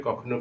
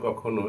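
No difference in how they are said.

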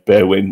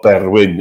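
First: The R is said plainly, without a roll. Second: The R is rolled.

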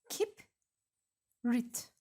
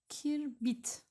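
First: The b sound comes before the r sound. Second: The r sound comes before the b sound. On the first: The speaker calls it right. "Doğrusu ise harfler yer değiştirecek" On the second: The speaker calls it wrong. "Kirbit deniyor. Bu yanlış"

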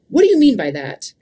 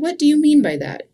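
First: The question is asked in a harsh tone. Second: The question is asked in a gentle tone. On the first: The asker is challenging or attacking the other person. The speaker calls it wrong. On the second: The asker sincerely wants to understand the other person. The speaker calls it right.

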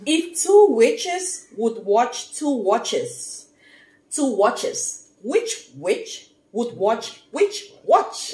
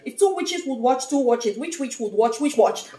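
First: It is said slowly. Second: It is said fast.

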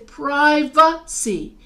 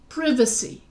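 First: The stress is on the second syllable. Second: The stress is on the first syllable. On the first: "the accent is on the va" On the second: "then the accent is on the I"

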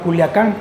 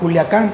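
First: The middle syllable sounds like 'lia'. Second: The middle syllable sounds like 'lia'.

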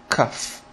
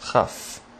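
First: It begins with a hard k sound. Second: It begins with a raspy ch sound. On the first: The letter has a dot inside it. "whenever you have a dot inside the letter Chaf, you pronounce it Kaf. K, like K in English" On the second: The letter has no dot inside it. "Without the dot, it is Chaf. Ch"

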